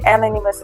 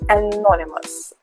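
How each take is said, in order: First: The stress is not on the second syllable. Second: The stress is on the second syllable. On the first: The speaker calls it wrong. "not to say anonymous" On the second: The speaker calls it right. "The stress is on the second syllable"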